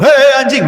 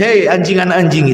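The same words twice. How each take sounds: First: Louder, higher demo shout; scornful mock yell; harsh intonation. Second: Mild, even-toned address; kindly rather than insulting; gentle, soft-spoken. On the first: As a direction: call it out rudely, higher pitched. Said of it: "Dari intonasi saja". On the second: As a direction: say it gently, without any bite. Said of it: "dengan kalimat yang lembut, lirih". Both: Shown as a demonstration.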